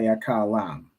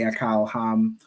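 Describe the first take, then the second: First: The h sound in the ending is dropped. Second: The h sound in the ending is pronounced. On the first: "the hal is just not necessary" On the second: "the hal is just not necessary"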